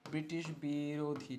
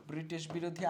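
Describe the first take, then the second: First: Slow, low, softer teacher's dictation; stretched out for note-takers. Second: Said in the usual way. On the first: Shown as a demonstration. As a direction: draw the term out syllable by syllable. Teacher spelling out the term slowly.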